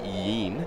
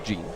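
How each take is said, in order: First: The name begins with a Y sound. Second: The name begins with a soft J sound. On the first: This is how the name was known in the minors. The speaker calls it wrong. "Was known throughout the Nationals minor league system and the Pirates as" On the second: This is how the player himself says the name. The speaker calls it right. "correct pronunciation is with the soft J"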